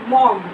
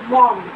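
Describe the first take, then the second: No difference in how they are said.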